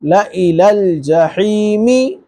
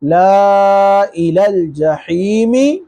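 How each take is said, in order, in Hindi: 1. लिखा हुआ अलिफ़ छोड़ दिया जाता है, कोई लंबी मात्रा नहीं। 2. लिखा हुआ अलिफ़ लंबी मात्रा की तरह पढ़ा जाता है। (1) "सही पढ़ने का तरीका" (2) "ये गलत तरीका है पढ़ने का"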